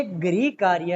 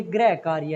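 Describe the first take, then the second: First: गृह said as "gri", with an i vowel; correct pronunciation of गृह. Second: गृह said as "grai", with an ai vowel; contrasting pronunciation of गृह. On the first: Teacher corrects the children, गृह pronounced "gri". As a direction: say गृह with a clear "ri". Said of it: "जबकि ये गृह कार्य है". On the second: Teacher contrasts the other word, गृह pronounced "grai". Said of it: "और ये गृह कार्य है". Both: Shown as a demonstration.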